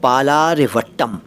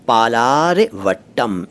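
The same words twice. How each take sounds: First: Said in the usual way. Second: पालारवट्टम broken slowly into parts; पालारवट्टम drawn out for learners; slow sounding-out. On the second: Shown as a demonstration. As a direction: stretch पालारवट्टम out, pausing before the last syllables. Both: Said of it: "इस station का नाम है".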